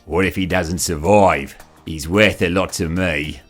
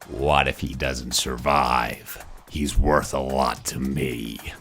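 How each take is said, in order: First: It is said with a New Zealand accent. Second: It is said in a croaky, gravelly voice. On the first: The speaker calls it wrong. "it doesn't sound right. ... it's not a dude from New Zealand" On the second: The speaker calls it right. "It's a croaky-voiced, mysterious character"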